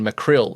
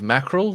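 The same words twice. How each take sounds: First: It is said the surname way, unlike the fish. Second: It is said the way the fish is named. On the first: It is the family name. The speaker calls it right. "how I pronounce my name is [name]" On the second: It is the fish. The speaker calls it wrong. "instead of mackerel, like the fish"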